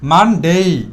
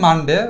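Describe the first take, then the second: First: The final syllable is drawn out long. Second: The final syllable is short and clipped. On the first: "একটু টেনে বলবো মানডেই" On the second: "normal আমরা বলতাম মানডে"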